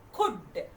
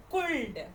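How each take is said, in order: First: Could said as kood, no L, falling; correct, silent L. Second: Could said as kuld, L pronounced; wrong way, L sounded. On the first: Shown as a demonstration. Teacher to first class children, correct silent L. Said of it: "No. Here, C O U L D". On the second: Retold or imitated. Teacher to first class children, mock mistake with L sounded. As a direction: imitate the children saying could with an L. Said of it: "they are pronouncing the word".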